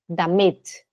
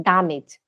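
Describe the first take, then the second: First: Damit as "da-MIT"; stress on second syllable. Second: Damit as "DA-mit"; front-load damit on the DA; wrong stress on DA. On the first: Teacher correcting her student, damit stressed on MIT. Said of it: "a sílaba forte é no M". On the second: Teacher correcting her student, damit wrongly stressed on DA. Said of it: "não é damit". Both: Shown as a demonstration.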